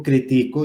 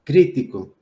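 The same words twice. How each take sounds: First: Critico said cri-TI-co; stress on middle syllable. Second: Crítico said CRÍ-ti-co, falling after CRÍ; stress on first syllable. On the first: Teacher contrasting it with the esdrújula, critico stressed on TI. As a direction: put the weight on TI in critico. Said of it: "es una palabra grave". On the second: Teacher showing the esdrújula form, crítico stressed on CRÍ. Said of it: "en antepenúltima sílaba". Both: Shown as a demonstration.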